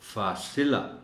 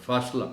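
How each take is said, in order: First: An 'i' vowel follows the s sound. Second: There is no vowel after the s sound. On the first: The speaker calls it right. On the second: The speaker calls it wrong.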